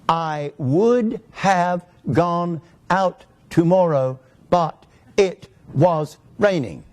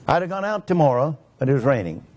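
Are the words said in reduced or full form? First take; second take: full; reduced. First: Every word is said fully and clearly, unreduced. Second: Syllables are swallowed and the words run together. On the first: "you know what I was actually saying?" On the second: "Do you notice how I swallowed syllables"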